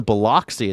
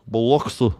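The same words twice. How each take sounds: First: Biloxi with an open "ah", bi-LOCK-see; outsider's pronunciation. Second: Biloxi as slack-jawed buh-LUCK-suh; local Mississippi pronunciation. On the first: Newcomer saying where he's going, Biloxi as bi-LOCK-see. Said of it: "We don't say that around here". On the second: Locals correcting a newcomer, Biloxi as buh-LUK-suh. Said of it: "We call it Biloxi". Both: Retold or imitated.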